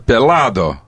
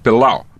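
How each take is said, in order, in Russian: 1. Звук d в середине произносится. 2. Звук d в середине пропадает. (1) "А «пилау» — это «пеладо»" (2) "Вот так, еще глотая «д»"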